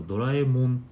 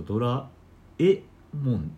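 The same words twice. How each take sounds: First: ドラえもん in standard Tokyo accent, もん higher; ドラえもん in standard Japanese pitch. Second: ドラ えもん in Kansai accent, split, えもん rising; ドラえもん with Kansai pitch accent. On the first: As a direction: demo of ドラえもん with the rise on もん. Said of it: "標準語だと". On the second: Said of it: "関西弁だと". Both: Shown as a demonstration.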